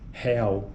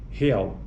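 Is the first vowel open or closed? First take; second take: open; closed. First: The first vowel is open. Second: The first vowel is closed. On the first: "vogais pré-tônicas abertas, como em real" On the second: "diferente de real"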